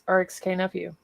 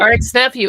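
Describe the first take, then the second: First: The letter K is spoken aloud. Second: The letter K is left silent. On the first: The speaker calls it wrong. "I keep saying R X K, and I'm a dummy" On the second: The speaker calls it right. "the K is silent"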